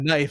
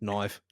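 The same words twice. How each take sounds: First: It is said with a plain American vowel. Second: It is said with a long, gentle Australian vowel. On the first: The speaker calls it wrong. "it's not this" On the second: The speaker calls it right. "it's this"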